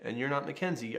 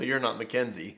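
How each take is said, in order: First: It is said in a calm, neutral tone. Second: It is said in a judgmental, reproachful tone. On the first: It is simply a fact, with no criticism. The speaker calls it right. "It's just" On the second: The child is being criticized. The speaker calls it wrong. "there's no judgment, and it's all about the tone"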